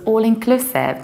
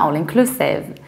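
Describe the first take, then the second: First: The consonant before the last syllable is s. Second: The consonant before the last syllable is z. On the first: The speaker calls it right. "There wasn't any Z there either" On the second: The speaker calls it wrong.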